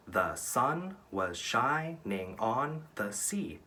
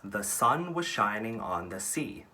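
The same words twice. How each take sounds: First: "The sun was shining on the sea" very slow, each syllable separated; counting syllables. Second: Said in the usual way. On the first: Shown as a demonstration. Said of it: "That's eight syllables". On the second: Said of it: "So that's".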